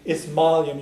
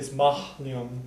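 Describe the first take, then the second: First: The h sound after maith is dropped. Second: The h sound after maith is pronounced. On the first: The speaker calls it right. "who's going to pronounce an H sound at the end of a word? So usually" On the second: The speaker calls it wrong. "you wouldn't say"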